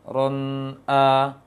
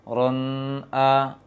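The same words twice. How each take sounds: No difference in how they are said.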